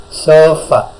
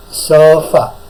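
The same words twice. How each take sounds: First: Sofa said again, louder, falling; repeated model word. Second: Clear, careful Sofa, louder and falling; model word to listen to. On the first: Teacher repeats Sofa for students, carefully. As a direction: repeat Sofa clearly for the class. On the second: Teacher models Sofa for students to repeat, carefully. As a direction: say Sofa slowly and distinctly for the class. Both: Shown as a demonstration. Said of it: "Dengarkan dulu".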